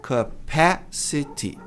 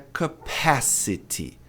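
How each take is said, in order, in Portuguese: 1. A tônica cai na segunda sílaba. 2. A tônica cai na segunda sílaba.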